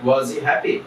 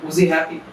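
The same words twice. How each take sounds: First: Said in the usual way. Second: Was he happy linked, he stressed and raised; teacher voicing the native version; native accent. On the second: Shown as a demonstration. Native version for students, he raised. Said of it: "তো এটা হবে".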